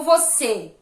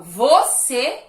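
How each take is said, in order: First: "você" with the weight on final CÊ; vo-CÊ, pushing the second syllable; stress on last syllable. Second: "você" with the weight moved onto VO; VO-cê, pushing the first syllable hard; stress on first syllable. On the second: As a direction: stress "você" wrongly on its opening VO. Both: Shown as a demonstration. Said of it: "colocando a entonação em sílabas diferentes".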